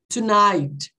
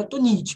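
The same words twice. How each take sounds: First: Tonight said as tu-NAIT; correct pronunciation. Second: Tonight said Portuguese-style as tu-NEE-tchee; wrong pronunciation. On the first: Teacher giving students the correct Tonight. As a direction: say Tonight right, ending in NAIT. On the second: Teacher showing students the common wrong way to say tonight. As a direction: mispronounce tonight as tunitchi on purpose. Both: Shown as a demonstration. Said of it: "não é tonight".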